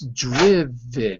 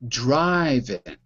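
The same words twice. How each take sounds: First: The first vowel is a short 'ih' sound. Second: The first vowel is a long 'eye' sound. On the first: The speaker calls it right. "the first syllable is closed, not open. It ends with the consonant V" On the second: The speaker calls it wrong. "not driven"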